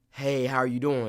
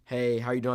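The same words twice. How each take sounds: First: Audible intake, then the line; demonstrated actor's breathing habit; gasp before line. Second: Said in the usual way. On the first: Shown as a demonstration. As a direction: suck in a breath before speaking. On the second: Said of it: "So say the line was like".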